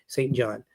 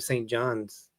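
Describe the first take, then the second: First: The name ends without an s sound. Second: The name ends with an s sound. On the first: The speaker calls it right. "say it right" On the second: The speaker calls it wrong. "it's not more than one"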